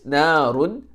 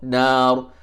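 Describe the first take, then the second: First: The word ends with an un sound. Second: The word ends abruptly on the r sound. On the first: The reader continues without stopping. "If it's not double fathah, for instance, narun" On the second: The reader stops on this word. "you stop nar"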